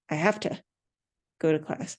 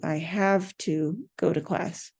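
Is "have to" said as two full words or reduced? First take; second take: reduced; full. First: Have and to merge into one word, hafta. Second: Have and to are said as two full words. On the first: The speaker calls it right. "They're going to say, ... H A F T A" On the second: The speaker calls it wrong. "Nobody says have to"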